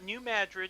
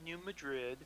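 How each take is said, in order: First: It is said with the local pronunciation. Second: It is said with the standard pronunciation. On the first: This is how people here say it. "We we've got New Madrid" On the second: This is how it is said elsewhere. "instead of New Madrid"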